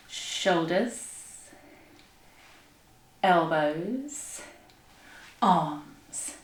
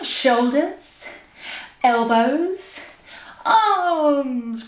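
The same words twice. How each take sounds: First: Soft, low, drawn-out words; slow exercise count. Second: Stretched words, raised and energetic; big drawn-out call. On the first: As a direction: stretch each word along with a slow roll. Leads slow movement exercise. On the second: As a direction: stretch each word with a big final push. Last, bigger round of exercise. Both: Shown as a demonstration.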